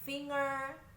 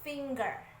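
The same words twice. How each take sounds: First: It rhymes with singer, with no hard g. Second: It has a hard g after the ng sound. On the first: The speaker calls it wrong. "finger juga dibaca dengan cara yang sama. Singer" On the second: The speaker calls it right. "Yang benar adalah finger"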